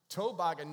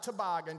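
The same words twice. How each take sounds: First: Toboggan said loud, TOE-boggan; North Carolina pronunciation. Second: Toboggan said tuh-BOGGAN; standard pronunciation. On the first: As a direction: punch a full TOE at the front of Toboggan. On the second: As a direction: reduce the first syllable of toboggan to tuh. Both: Shown as a demonstration. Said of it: "not toboggan".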